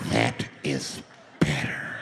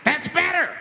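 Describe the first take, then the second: First: Very low, drawn-out approval; creepy low voice. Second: High, raised-voice approval; high mock outburst. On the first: Acted. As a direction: sink right down and say it slowly. Same man, now sinister. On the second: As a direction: call it out high and forceful. Gunless tyrant approves the quiet.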